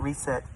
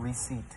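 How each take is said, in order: First: Said in the usual way. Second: "reseat" said as re-SEAT, with a long ee; distinct RESEAT. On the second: Shown as a demonstration. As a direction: say "reseat" to rhyme with "repeat", not "reset". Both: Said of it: "not reset, but reseat".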